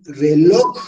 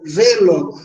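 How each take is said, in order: First: Reloj with a long, rising LOJ; reloj, second syllable strong and drawn out; stress on last syllable. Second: Reloj wrongly punched on RE, falling away; stress on first syllable. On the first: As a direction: lean hard on the end of reloj. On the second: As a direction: hit RE in reloj, drop the end. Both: Shown as a demonstration. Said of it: "Obviamente que decimos re a tono, log tónico".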